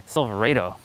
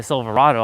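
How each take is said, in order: First: Silverado said "silver-AY-toe"; new pronunciation. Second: Said in the usual way. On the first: Shown as a demonstration. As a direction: give Silverado a long AY in place of AH. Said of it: "now every time I see a". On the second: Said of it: "I'll be like".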